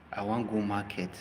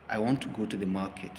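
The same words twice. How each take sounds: First: I want go market in Nigerian Pidgin cadence; Pidgin English. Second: Said in the usual way. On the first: Shown as a demonstration.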